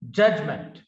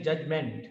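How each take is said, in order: First: "Judgment" with a weak "munt" ending; correct pronunciation. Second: "judgment" with a full "ment" ending; common mispronunciation. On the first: Teacher models the corrected word, "Judgment" ending in weak "munt". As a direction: stress the first syllable of "Judgment", reduce the vowel in the second. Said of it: "It is month". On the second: Teacher shows how people generally say it, "judgment" ending in full "ment". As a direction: say "judgment" with a clear e in the last syllable. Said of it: "It is not meant". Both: Shown as a demonstration.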